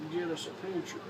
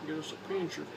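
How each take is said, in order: Both takes have the same delivery.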